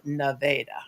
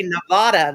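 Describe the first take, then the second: First: "Nevada" with a middle ay; locals' pronunciation. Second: "Nevada" with a middle ah; outsider's pronunciation. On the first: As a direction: say "Nevada" as nuh-VAY-duh. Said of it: "we pronounce it Nevada". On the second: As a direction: say "Nevada" as nuh-VAH-duh. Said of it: "didn't want me to say". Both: Shown as a demonstration.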